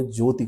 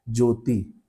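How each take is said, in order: First: ज्योति ending in short इ; correct short vowel. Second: ज्योति ending in long ई; common mispronunciation. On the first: Teacher showing the rare correct form, pronunciation demo. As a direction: say ज्योति with a brief final i. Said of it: "बहुत कम लोगों ने". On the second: Teacher showing what everyone says, mispronunciation demo. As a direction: draw the final vowel of ज्योति to ee. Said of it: "सब लोग क्या कहते हैं?". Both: Shown as a demonstration.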